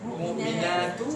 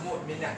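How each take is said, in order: First: The word ends with a short vowel after t. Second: The word stops on the final t sound.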